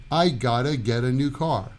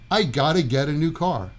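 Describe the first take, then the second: First: The sounds are squeezed together completely. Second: The same.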